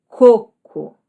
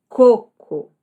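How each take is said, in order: Both takes have the same delivery.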